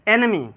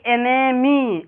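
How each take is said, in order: First: "एनेमी" quick, with short e sounds; short vowels. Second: "एनेमी" slow, with "ने" and "मी" drawn out; stretched vowels. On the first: Teacher models the right reading, short "एनेमी". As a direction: say "एनेमी" without stretching any syllable. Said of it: "short sound निकलता है". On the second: Teacher shows students the wrong reading, stretched "एनेमी". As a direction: drag each vowel of "एनेमी" as a mistake. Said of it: "इतना पढ़िएगा तो ये गलत हो जाएगा". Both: Shown as a demonstration.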